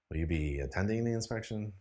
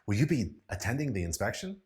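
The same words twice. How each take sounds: First: The voice sounds bored and uninterested. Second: The voice sounds excited and lively. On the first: "a bored, uninterested voice" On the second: "use it in an excited tone of voice"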